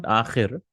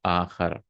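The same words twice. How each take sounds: First: "akhir" ending in a short i sound. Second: "akhar" ending in a short a sound. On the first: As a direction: say "akhir" with an i in the last syllable. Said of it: "This is not akhir". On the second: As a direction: say "akhar" with an a in the last syllable. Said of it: "This is akhar". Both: Shown as a demonstration.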